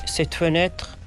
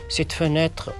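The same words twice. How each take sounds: The two takes are said the same way.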